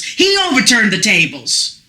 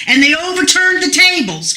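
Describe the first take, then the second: First: "he" stressed as a correction, not "they". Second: Said in the usual way. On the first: Shown as a demonstration. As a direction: lean on "he" to set him against "they".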